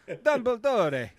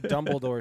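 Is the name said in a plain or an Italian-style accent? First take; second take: Italian-style; plain. First: It is said with an exaggerated Italian-style accent. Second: It is said in a plain English accent.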